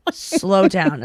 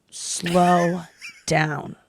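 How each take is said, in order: First: Said in the usual way. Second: Imitating a very deliberate warning, each word held long; drawn-out slow down. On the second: Surgeon warning a fast-talking patient, very slowly. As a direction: stretch SLOW and DOWN far apart. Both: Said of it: "Right away, I gotta tell you".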